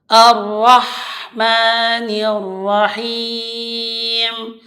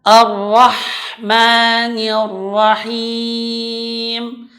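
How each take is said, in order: No difference in how they are said.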